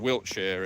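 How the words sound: The ending is shortened to a weak 'sher' sound. It is the usual pronunciation. "the more commonly accepted pronunciation"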